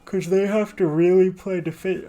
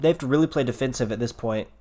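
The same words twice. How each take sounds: First: Talking through a big yawn; words stretched by a yawn. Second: Said in the usual way. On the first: Real, not acted. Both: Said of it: "I'm yawning a lot".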